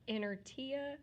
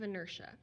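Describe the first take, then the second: First: It is sounded out just as it is spelled. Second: It is said with its usual spoken pronunciation. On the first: The speaker calls it wrong. "spelled like inertia, but I don't want us to pronounce it that way" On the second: The speaker calls it right. "I want us to say it correctly"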